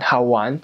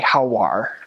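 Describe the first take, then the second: First: It is said in a Taiwan accent, without an r. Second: It is said in a Beijing accent, with an r.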